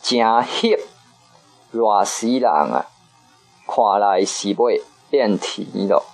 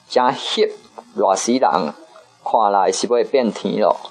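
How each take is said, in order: First: It is said slowly. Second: It is said at normal speed.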